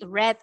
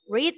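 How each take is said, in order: First: The word sounds like the color 'red'. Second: The word does not sound like 'red'. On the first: It is the past tense. "Red is in the past, como el color red" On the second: It is the present tense. "Read is in the present"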